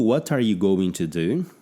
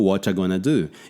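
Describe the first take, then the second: First: Every word is said in full. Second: 'Are' is dropped and 'going to' becomes 'gonna'. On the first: It is the form as written. "eu tô lendo" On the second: It is the form as actually spoken. "Mas ele está falando"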